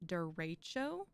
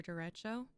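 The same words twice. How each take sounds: First: "derecho" as der-AY-cho, middle drawn out; middle-syllable emphasis. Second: "derecho" with a short eh in the middle; speaker's own pronunciation. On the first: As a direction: lean on the middle of "derecho", lifting at the end. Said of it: "emphasis on the middle syllable". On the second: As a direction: say "derecho" as der-EH-cho. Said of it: "online the pronunciation says". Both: Shown as a demonstration.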